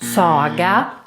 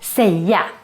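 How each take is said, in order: First: The first syllable does not sound like English 'say'. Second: The first syllable sounds like English 'say'. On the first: The speaker calls it wrong. "Very important to not pronounce this verb as saga" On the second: The speaker calls it right. "it's still pronounced quite similar to English. We say säga"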